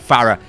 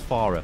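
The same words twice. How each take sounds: First: Said in a casual, working-class English accent. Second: Said in a posh, upper-class English accent. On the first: "my accent it, it, it tells me that I need to say Farah" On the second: "let's speak the Queen's English now"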